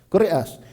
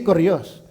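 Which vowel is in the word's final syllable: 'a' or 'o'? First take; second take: a; o. First: The final syllable has an 'a' vowel. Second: The final syllable has an 'o' vowel. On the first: The speaker calls it right. "Koreas. Hindi Koreos" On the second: The speaker calls it wrong. "Hindi Koreos"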